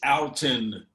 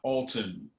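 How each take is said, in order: First: The name is pronounced in a casual Midwestern way. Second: The name is pronounced in a formal-sounding way. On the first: The speaker calls it right. "it's Alton" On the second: The speaker calls it wrong. "not Alton. ... Don't get all formal with Alton"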